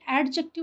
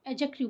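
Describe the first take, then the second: First: A clear d sound is said before the j. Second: No d sound is said before the j. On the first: The speaker calls it wrong. "इसे एडजेक्टिव नहीं बोलते हैं" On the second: The speaker calls it right. "यहाँ पर डी silent होता है"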